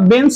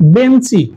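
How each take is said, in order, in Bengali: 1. শব্দটি ব্যঞ্জনধ্বনি দিয়ে শেষ হয়। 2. শব্দটির শেষে একটি যুক্ত i স্বরধ্বনি আছে।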